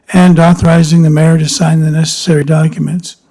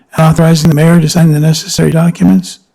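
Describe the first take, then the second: No difference in how they are said.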